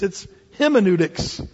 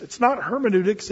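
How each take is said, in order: First: "hymeneutics" said with a long "hym" like hymn; pun pronunciation. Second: Said in the usual way. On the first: Shown as a demonstration. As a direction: stress the hymn sound in "hymeneutics".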